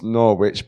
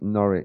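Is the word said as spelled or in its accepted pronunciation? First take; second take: as spelled; accepted. First: Every letter is sounded as it is spelled. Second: It is said in its shorter accepted form. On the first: The speaker calls it wrong. "phonetically, it's Norwich" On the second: The speaker calls it right. "but it's pronounced Norwich"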